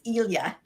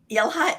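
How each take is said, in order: First: The middle is an L gliding into Y. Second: The middle is a plain L followed by H. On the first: The speaker calls it right. "it's Ilya" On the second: The speaker calls it wrong. "I've been saying"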